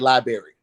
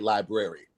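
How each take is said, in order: First: The word is said in a casual, common pronunciation. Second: The word is said in a careful, full pronunciation. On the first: This is how most people say it. The speaker calls it wrong. "people usually say library" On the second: This is how the word is properly pronounced. The speaker calls it right. "the way it's actually pronounced"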